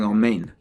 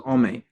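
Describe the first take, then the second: First: The final n sound is clearly pronounced. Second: The final n sound is cut off. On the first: The speaker calls it right. "instead of saying amen" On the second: The speaker calls it wrong. "not cut off if the nun at the end is not clearly pronounced"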